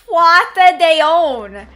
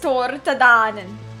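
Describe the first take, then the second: First: The name ends with a 'dee-on' sound. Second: The name ends with a 'danan' sound. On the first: The speaker calls it wrong. "They call it Tuata Deon. I'm like, that is not how you say it" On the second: The speaker calls it right. "It is Tortadanen"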